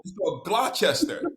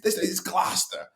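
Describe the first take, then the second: First: Gloucester said as "Glaw-chester", reading every letter; spelled-out pronunciation. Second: Gloucester said "Glosta", short and clipped like a local; local pronunciation. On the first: Shown as a demonstration. Explaining the town name to the host, spelling-style Gloucester. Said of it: "if you know how Gloucester is spelled". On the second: Retold or imitated. A New Englander correcting the newcomer, local Gloucester. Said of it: "No, it's".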